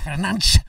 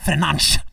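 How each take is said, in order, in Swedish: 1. Namnet har ett portugisiskt uttal. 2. Namnet har ett portugisiskt uttal.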